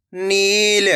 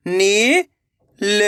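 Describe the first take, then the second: First: Said in the usual way. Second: "नील" split with a pause; long rising नी, pause, then ल in "नील"; letter by letter. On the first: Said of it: "तो मिलके बन जाएगा". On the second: Shown as a demonstration. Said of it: "एक एक अक्षर का उच्चारण". ("नील" को तोड़कर, नी... ल)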